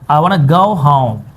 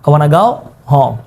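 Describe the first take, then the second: First: 'I' and 'go' are pronounced in full. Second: 'I' becomes 'a' and 'go' sounds like 'gao'.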